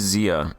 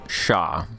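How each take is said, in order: First: The word begins with a z sound. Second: The word begins with an sh sound. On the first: The speaker calls it wrong. "I've been saying that wrong all this time" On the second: The speaker calls it right. "like the Shah of Iran"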